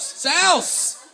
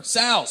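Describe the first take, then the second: First: Sal's called out higher and louder; excited shout. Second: Said in the usual way. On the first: Real, not acted. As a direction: cheer the name Sal's. Crowd names a pizza place.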